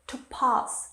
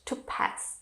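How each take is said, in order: First: It is said in a British accent. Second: It is said in an American accent. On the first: "is British" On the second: "is American"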